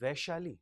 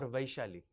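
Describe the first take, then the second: First: Vaishali said as "VAY-shali"; first pronunciation offered. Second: Vaishali said as "VYE-shali"; alternative pronunciation offered. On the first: Interviewer checking a candidate's name, Vaishali pronounced "VAY-shali". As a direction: open Vaishali with a single "vay" vowel. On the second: Interviewer offering the other reading of the name, Vaishali pronounced "VYE-shali". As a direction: open Vaishali with a gliding "vye" diphthong. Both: Shown as a demonstration. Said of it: "What is the correct pronunciation?".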